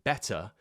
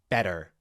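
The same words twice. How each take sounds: First: The middle consonant is a crisp T sound. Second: The middle consonant is a soft D-like flap. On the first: The speaker calls it right. "instead of saying better" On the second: The speaker calls it wrong. "a bit more like better, with this D sound"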